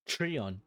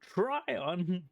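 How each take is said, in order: First: The first syllable sounds like 'tree'. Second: The first syllable sounds like 'try'. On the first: "you get two different pronunciations" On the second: "you get two different pronunciations"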